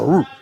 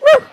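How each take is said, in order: First: The bark is deep, with bass. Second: The bark is high and light, like a puppy.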